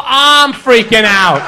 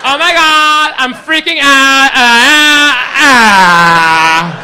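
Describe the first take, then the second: First: Loud, slow "I'm freaking out", stress on "I'm"; own freak-out. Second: Loud, high imitation of a girl freaking out; mock freak-out. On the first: Acted. Comic topping the girl's panic with his own, "I'm" stressed. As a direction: lean on "I'm" in "I'm freaking out", loudly. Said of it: "you think she's freaking out, people?". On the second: Girl amazed he guessed her sign, imitated in a hysterical freak-out. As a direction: squeal into drawn-out wails, hammed up. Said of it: "you think she's freaking out".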